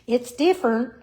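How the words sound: It sounds polite but disapproving. The thing is not liked. "she'd say it when she didn't like it"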